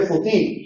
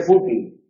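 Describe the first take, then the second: First: Futil stressed fu-TIL, higher; stress on last syllable. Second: Fútil stressed FÚ-til; stress on first syllable. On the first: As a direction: land the beat on TIL in futil. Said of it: "no se dice futil". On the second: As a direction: put the beat on FÚ and let til fall. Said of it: "se dice fútil". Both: Shown as a demonstration.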